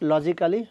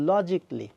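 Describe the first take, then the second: First: The 'al' syllable before '-ly' is pronounced. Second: The 'al' syllable before '-ly' is dropped. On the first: The speaker calls it wrong. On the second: The speaker calls it right.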